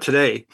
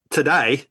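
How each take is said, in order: First: Said in the usual way. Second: "Today" said Aussie-style as "to-die"; Australian vowel in "Today", rhyming with "die"; Australian accent. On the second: Shown as a demonstration. Showing how Aussies say it, "Today" as "to-die" in Australian accent. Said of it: "'cause the Aussies say".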